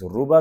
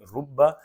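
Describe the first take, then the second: First: The b sound is short and single. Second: The b sound is held long and doubled.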